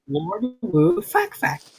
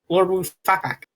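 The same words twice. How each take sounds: First: The name is said at a normal pace. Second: The name is said quickly, running together.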